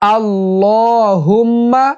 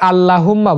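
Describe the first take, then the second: First: The word is said in a careful classical pronunciation. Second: The word is said in a common careless pronunciation. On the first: The speaker calls it right. "সঠিক উচ্চারণ।" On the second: The speaker calls it wrong. "অনেকে আল্লাহুম্মা বলে, এটা ভুল উচ্চারণ।"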